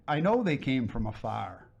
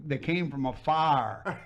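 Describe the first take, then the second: First: Said in the usual way. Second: "afar" drawn out slowly as a Southern "fire"; imitated Southern accent. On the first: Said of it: "But she was saying fire". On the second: Explaining the redhead's riddle, imitated Southern accent on "afar". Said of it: "But with that accent".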